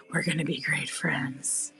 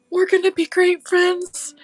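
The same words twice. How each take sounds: First: Whisper. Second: Up high and brighter, cooing at the gnome; high excited cooing. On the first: Whispering to the gnome. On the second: Crafter greets her new gnome in a high coo. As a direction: gush at him like a baby. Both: Pretend.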